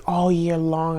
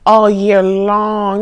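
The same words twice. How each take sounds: First: Said in the usual way. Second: "All year long" slow and louder, each word weighted; emphatic repeat. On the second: Shown as a demonstration.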